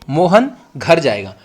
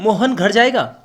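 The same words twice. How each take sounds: First: The sentence ends with a falling statement tone. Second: The sentence ends with a rising question tone. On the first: It is a plain statement of fact. "मैंने इसको simple बोला कि मोहन घर जाएगा, यानी पूर्ण विराम में बोला" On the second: It asks whether he will go home. "Question पूछ के भी तो बोल सकता हूं"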